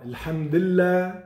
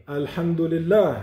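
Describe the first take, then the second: First: Alhamdulillah said as lhamdilla, the u dropped and no final h; the sloppy Alhamdulillah, vowels blurred; wrong pronunciation. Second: Alhamdulillah with every vowel sounded, al-ham-du-li-lah; the careful Alhamdulillah, each syllable clear; correct pronunciation. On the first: Teacher showing children the wrong way to say Alhamdulillah. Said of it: "Alors on ne dit pas". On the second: Teacher showing children the right way, each syllable in Alhamdulillah clear. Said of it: "on dit". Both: Shown as a demonstration.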